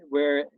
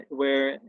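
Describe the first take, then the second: No difference in how they are said.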